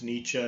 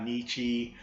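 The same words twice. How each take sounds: First: The name ends with a short 'uh' sound. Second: The name ends with an 'ee' sound. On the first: The speaker calls it right. "notice that's how it's pronounced. It's Nietzsche" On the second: The speaker calls it wrong. "not Nietzsche"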